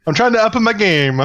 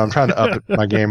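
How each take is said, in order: First: High, hammed-up Italian accent; mock Italian, sung high; fake Italian accent. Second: Said in the usual way. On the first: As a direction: put on a silly Italian lilt, pitched up. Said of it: "when you do the fake Italian accent".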